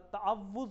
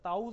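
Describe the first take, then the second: First: The middle w sound is doubled and stressed. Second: The middle w sound is dropped. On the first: The speaker calls it right. "तअव्वुज़ होता है" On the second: The speaker calls it wrong. "ताउज़ नहीं होता"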